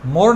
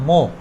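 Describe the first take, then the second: First: The word ends with an audible r sound. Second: The word ends without any r sound. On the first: The speaker calls it wrong. "মোর না বলে" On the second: The speaker calls it right. "কি বলবো মো"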